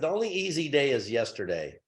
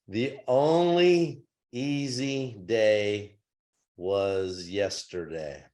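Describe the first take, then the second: First: It is said at a fast pace. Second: It is said at a slow pace.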